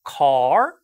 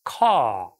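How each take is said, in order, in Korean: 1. 모음 뒤에 r 소리가 들려요. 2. r 소리는 없어요. 대신 모음이 길어져요.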